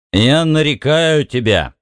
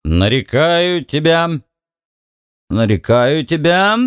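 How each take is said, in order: First: Put-on slow, slurring drunk mumble; slurred drunk speech. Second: Put-on slow drunken mumbling, pitched up; slurred drunk speech. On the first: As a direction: mumble it with a thick tongue. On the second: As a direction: slur it like a tipsy frat bro. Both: A narrator's reading. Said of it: "заплетающимся языком бормотал Бикс".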